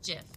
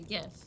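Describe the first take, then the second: First: The word starts with a J sound. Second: The word starts with a hard G sound.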